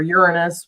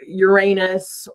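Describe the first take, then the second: First: Uranus as "YOUR-uh-nus", short unstressed middle; YOUR-uh-nus pronunciation. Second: Uranus as "your-AY-nus", long middle vowel; your-AY-nus pronunciation. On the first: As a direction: say Uranus with the stress up front. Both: Shown as a demonstration. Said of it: "Uranus or Uranus, whatever".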